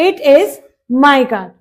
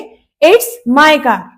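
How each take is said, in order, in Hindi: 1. यह दो अलग-अलग पूरे शब्दों की तरह बोला जाता है। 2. यह एक छोटे अक्षर में संक्षिप्त होकर बोला जाता है।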